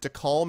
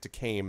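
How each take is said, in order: First: The last syllable sounds like the word calm. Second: The last syllable sounds like the word came. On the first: "as in calm? C-A-L-M?" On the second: "as in I have came?"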